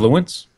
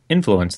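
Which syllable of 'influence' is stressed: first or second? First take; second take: second; first. First: The stress is on the second syllable. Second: The stress is on the first syllable. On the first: The speaker calls it wrong. "You were putting the stress on the second syllable" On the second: The speaker calls it right. "then you put it on the first syllable, the correct way"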